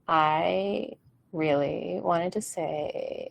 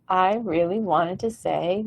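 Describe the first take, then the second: First: The voice is low and creaky, dropping flat. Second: The voice is lifted with more breath and power. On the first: The speaker calls it wrong. "instead of like" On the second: The speaker calls it right. "You can hear the difference in my voice. I'm just lifting it"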